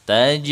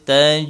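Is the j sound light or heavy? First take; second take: light; light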